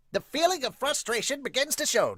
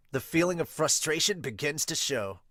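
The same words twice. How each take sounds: First: Higher dramatic read of feeling; voiced-up narrator line. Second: Said in the usual way. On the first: Shown as a demonstration. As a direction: give it a trailer voice.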